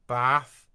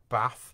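First: The word is said in a West Country accent. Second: The word is said in a Northern accent. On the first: "West Country" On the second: "anywhere that's sort of north of Leicester"

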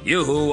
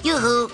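First: It is said in a low Popeye voice. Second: It is said in a high Popeye voice.

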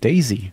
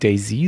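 First: The stress is on the first syllable. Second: The stress is on the second syllable. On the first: The speaker calls it right. "sondern Daisy" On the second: The speaker calls it wrong. "nicht so wie [name]"

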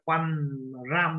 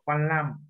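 First: The second syllable begins with an R sound. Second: The second syllable begins with an L sound. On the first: The speaker calls it wrong. "Không phải Quan Ram đâu ạ" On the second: The speaker calls it right. "Hai chữ đều đọc là hai chữ L luôn ạ"

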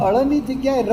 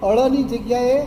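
Both takes have the same delivery.

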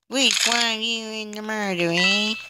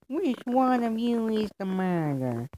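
First: It is said in the speaker's normal voice. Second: It is said in a put-on cowboy sheriff voice.

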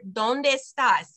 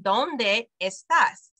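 First: The two words run together as one. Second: The two words are kept apart. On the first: "It kind of smushed together and became one word" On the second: "she didn't say ¿dónde estás?"

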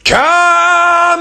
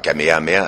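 First: It is shouted in the character's energetic voice. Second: It is said in his normal speaking voice.

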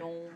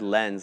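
First: The name is pronounced with a French pronunciation. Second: The name is pronounced like the English word lens. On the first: The speaker calls it right. "They got to do it the French way" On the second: The speaker calls it wrong. "I said it wrong. I said Lens"

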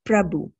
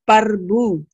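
First: The p and r form a cluster, no vowel. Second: A vowel comes between the p and r. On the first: The speaker calls it right. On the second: The speaker calls it wrong.

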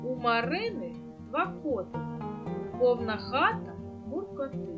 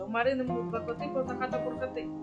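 First: The line is read at a slow, ordinary pace. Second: The line is read at a faster pace.

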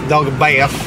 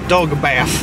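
The two takes are said the same way.

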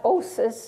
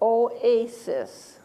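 First: The word is said as two syllables. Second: The word is said as three syllables. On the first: The speaker calls it wrong. "It's not osis" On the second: The speaker calls it right. "it's oasis. So I'm dividing after the O"

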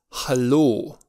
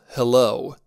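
First: The first vowel sounds like an open 'a'. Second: The first vowel sounds like English 'e'. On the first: The speaker calls it right. "ci ha" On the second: The speaker calls it wrong. "nu se pronunță ca în engleză"

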